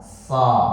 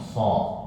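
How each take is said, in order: First: The vowel is said with still, unrounded lips. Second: The vowel is said with rounded, pushed-out lips. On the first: The speaker calls it right. "bibirnya jangan sampai bergerak" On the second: The speaker calls it wrong. "jangan sampai monyong. Sok. Salah"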